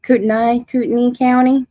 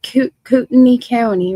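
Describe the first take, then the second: First: Fix "Kootenai", stressing the last "nye"; careful correction. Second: "Kootenai" tripped over, restarting after "Koot-"; stumbled place name. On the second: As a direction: fumble "Kootenai", said as "Kootni". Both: Real, not acted. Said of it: "I can't even say it".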